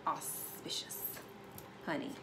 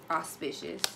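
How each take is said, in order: First: Breathy whispered "Auspicious". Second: Said in the usual way. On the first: Acted. Reader savors the word "Auspicious" in a hush.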